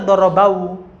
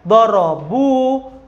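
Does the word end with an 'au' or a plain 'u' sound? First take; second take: au; plain u. First: The word ends with an au diphthong. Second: The word ends with a plain u sound. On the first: The speaker calls it wrong. "Tidak dibaca" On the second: The speaker calls it right. "Gitu ya"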